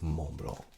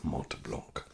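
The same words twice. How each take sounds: First: The final T and C sounds are silent. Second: The final T and C sounds are pronounced. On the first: The speaker calls it right. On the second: The speaker calls it wrong.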